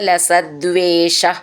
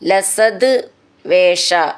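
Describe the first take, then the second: First: The two words are joined, with d before v. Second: The two words are said separately, ending in t.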